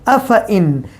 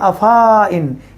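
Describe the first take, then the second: First: No long a sound follows 'af'. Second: A long a sound follows 'af'. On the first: The speaker calls it right. "इस अलिफ को नहीं पढ़ा जाएगा, इसको पढ़ा जाएगा अफ इन" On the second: The speaker calls it wrong. "ऐसा ना हो कि आप पढ़े अफा इन, ये गलत है"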